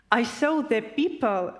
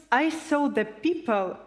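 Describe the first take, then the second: No difference in how they are said.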